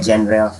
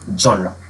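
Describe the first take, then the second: First: It starts with 'jen' and ends in 'ruh'. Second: It starts with 'zhon' and ends in 'ruh'. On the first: The speaker calls it wrong. "या जेनरा" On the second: The speaker calls it right. "इसकी जो correct pronunciation है"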